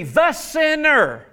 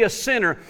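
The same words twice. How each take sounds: First: "the" drawn out slow and high before sinner; slow, high-pitched emphasis on the word "the"; stress on THE. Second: Said in the usual way. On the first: Shown as a demonstration. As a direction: lean hard on "the" in "the sinner". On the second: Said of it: "the word actually".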